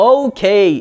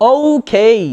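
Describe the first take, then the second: Both takes have the same delivery.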